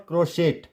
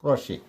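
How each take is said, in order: First: "crochet" as kro-SHET, final T pronounced; wrong sounded T. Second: "crochet" as kro-SHAY, no T; silent final T. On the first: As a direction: end "crochet" on a hard T. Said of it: "It's not crochet". ("crochet" के अंत में टी बोलकर) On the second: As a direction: end "crochet" on an ay vowel. ("crochet" को क्रोशे, टी silent) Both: Shown as a demonstration.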